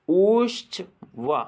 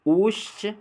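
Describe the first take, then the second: First: ऊश्च वा very slow, the vowel drawn out over three measures; ऊश्च sung out long, as if calling far; prolonged pluta vowel. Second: ऊश्च said short and quick, a single measure; ऊश्च with one short beat, pitched up; short hrasva vowel. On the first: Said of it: "और फिर प्लुत में बोलना है". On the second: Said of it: "पहले हमें ह्रस्व में बोलना है". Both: Shown as a demonstration.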